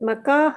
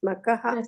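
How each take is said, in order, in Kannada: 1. "ka" ಉಚ್ಚಾರಾಂಶದ ಸ್ವರವನ್ನು ದೀರ್ಘವಾಗಿ ಹೇಳಲಾಗಿದೆ. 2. "ka" ಉಚ್ಚಾರಾಂಶದ ಸ್ವರವನ್ನು ಹ್ರಸ್ವವಾಗಿ ಇಡಲಾಗಿದೆ. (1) "ಮಕಾಹ ಇಲ್ಲ ಮಾತಾಜಿ" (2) "ಕ ದೀರ್ಘ ಇಲ್ಲ"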